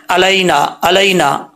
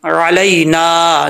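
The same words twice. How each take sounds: First: अलैना quick, starting on a plain "a"; hamza mistake. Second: Slow अलैना from a throaty ain, long "naa"; correct ain. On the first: Teacher showing people's mistake, ain read as hamza. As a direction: say अलैना lightly, no throat ain. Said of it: "आइन का फ़र्क ही नहीं करते". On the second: Teacher modelling the correct reading, drawn-out recitation. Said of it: "आइन को हमज़ा पढ़ जाते हैं". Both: Shown as a demonstration.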